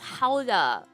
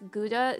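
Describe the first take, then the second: First: It starts with a breathy, throaty h sound. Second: It starts with a hard g, like 'good'. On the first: The speaker calls it right. "the actual way to pronounce it is Hauda" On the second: The speaker calls it wrong. "that only works if you're mispronouncing that cheese's name"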